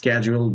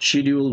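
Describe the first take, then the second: First: It begins with 'sk' and has a 'j' sound. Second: It begins with 'sh' and has a 'd' sound. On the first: "American অ্যাকসেন্টে এখন স্ক্যাজুয়াল বলে" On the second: "শিডিউল বলে না"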